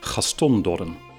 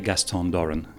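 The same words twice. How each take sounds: First: The name is said with a Dutch pronunciation. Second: The name is said with an English pronunciation. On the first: "Many Dutch speakers would say" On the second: "When I introduce myself in English"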